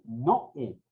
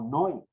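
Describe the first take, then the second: First: Noé in two syllables, no-É, stressed é; broken diphthong. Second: Noé said as one gliding syllable; run as a diphthong. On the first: Teacher correcting the reading, Noé split as no-É. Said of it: "Se rompe el, ese, ese dictongo". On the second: Teacher showing how not to read it, Noé as a diphthong. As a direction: merge o and e in Noé. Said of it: "no se lee como Noé". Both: Shown as a demonstration.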